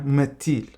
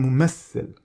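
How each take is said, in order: First: The word is said with a t sound. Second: The word is said with an s sound. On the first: This is the Moroccan Arabic form. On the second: This is the Egyptian Arabic form.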